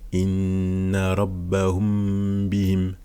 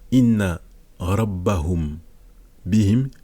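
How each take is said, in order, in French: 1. Le m devant b est tenu avec nasalisation. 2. Le m devant b est prononcé simplement et distinctement. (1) "on fusionne les deux et on fait une runna" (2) "au lieu de dire"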